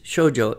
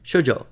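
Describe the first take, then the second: First: The first syllable is long, the second short. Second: Both syllables are short, two beats in total. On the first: "two beats on the first syllable and one on the second" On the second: "So shoujo is two beats"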